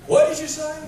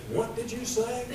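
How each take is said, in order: First: Very high, loud incredulous question; more baffled listener. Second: Higher-pitched, softer puzzled question; baffled listener. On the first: Preacher acting out a confused listener, loud high disbelief. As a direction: shoot the pitch way up in disbelief. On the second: Preacher acting out a confused listener, puzzled and high. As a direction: ask it high, as if you lost the thread. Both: Acted.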